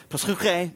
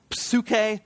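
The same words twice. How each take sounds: First: Psuche with a rasped throat CH, not K; guttural CH. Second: Psuche with the P sounded before the S; P pronounced. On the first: Preacher correcting the Greek word, psuche with guttural CH. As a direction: say psuche as "psoo-khay", scraping the KH. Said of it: "that's actually not a K". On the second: Preacher teaching the Greek word, psuche with sounded P and K. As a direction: say psuche as "psoo-kay", P audible. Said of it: "they pronounce the P and the S". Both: Shown as a demonstration.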